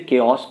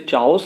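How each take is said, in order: First: The word begins with a 'k' sound. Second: The word begins with a 'ch' sound. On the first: The speaker calls it right. "इसे केओस पढ़ेंगे" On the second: The speaker calls it wrong. "इसे चाओस नहीं पढ़ेंगे"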